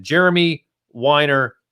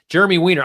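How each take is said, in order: First: "Weiner" said with a long WINE-er vowel; wrong name pronunciation. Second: "Weiner" said with a short WEEN-er vowel; corrected name pronunciation. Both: Shown as a demonstration. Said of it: "Weiner, I'm sorry".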